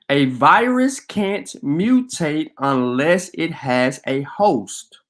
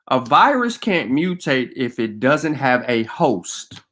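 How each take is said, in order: First: It is said slowly and deliberately. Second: It is said at normal speed.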